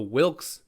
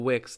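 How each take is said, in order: First: An L sound is heard before the K. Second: No L sound is heard before the K. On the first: The speaker calls it right. "The Wilks, not the Wicks" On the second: The speaker calls it wrong. "Apparently I've been pronouncing it wrong"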